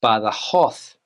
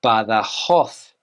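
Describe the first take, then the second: First: It is said with a Spanish pronunciation. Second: It is said with a Spanish pronunciation.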